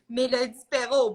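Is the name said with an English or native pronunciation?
native. The name is said with native pronunciation. "I say my name as it is"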